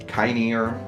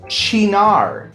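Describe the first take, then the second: First: The word begins with a k sound. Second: The word begins with a ch sound. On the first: The speaker calls it wrong. "not kynear" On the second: The speaker calls it right. "this is pronounced chinar"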